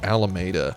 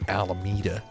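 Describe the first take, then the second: First: The name is said with a Spanish pronunciation. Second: The name is said with an anglicized pronunciation. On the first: This is how the name is obviously meant to be said. The speaker calls it right. "it's clearly Alameda" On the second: This is how people there commonly say it. The speaker calls it wrong. "everyone pronounces it Alameda"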